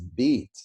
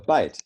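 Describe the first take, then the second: First: The vowel is a long 'ee' sound. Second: The vowel is a long 'eye' sound. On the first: This is the pronunciation before the Great Vowel Shift. "we used to say the word bite as beat" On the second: This is the present-day pronunciation. "the way that we say that word B I T E"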